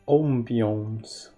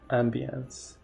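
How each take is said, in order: First: The word is said in a pretentious-sounding way. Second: The word is said in an ordinary-sounding way. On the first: The speaker wants to sound refined. "If you want to sound pretentious" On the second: The speaker wants to sound ordinary. "if you want to sound normal"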